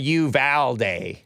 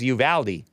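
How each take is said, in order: First: The name mixes English and Spanish sounds. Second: The name is said with English sounds. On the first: This form is a compromise between the two. "Sounds like a middle ground between the two" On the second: This is the form most locals accept. "the anglicized pronunciation commonly accepted by locals"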